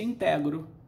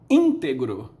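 First: The stress is on the second syllable. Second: The stress is on the first syllable. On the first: This is the common people's pronunciation. "O povão dizia" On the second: This is the classical, learned pronunciation. "No latim clássico se dizia"

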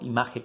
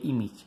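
First: The word is pronounced in a Spanish-style way. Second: The word is pronounced the English way. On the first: This is a mispronunciation fossilized since childhood. The speaker calls it wrong. "yo siempre digo image comics en vez de image" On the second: This is the correct pronunciation. The speaker calls it right. "en vez de image"

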